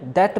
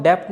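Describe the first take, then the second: First: "डेट" with no b sound before the t; silent b. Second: "डेप्ट" with an audible p/b before the t; b pronounced. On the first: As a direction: drop the b in "डेट", ending on a lone t. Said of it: "डेट बोलेंगे". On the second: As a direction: sound the normally silent letter in "डेप्ट". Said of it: "इसको हम डेप्ट नहीं". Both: Shown as a demonstration.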